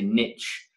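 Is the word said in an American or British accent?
American. It is said in an American accent.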